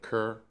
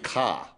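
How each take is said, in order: First: It is said in a General American accent. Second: It is said in a Boston accent.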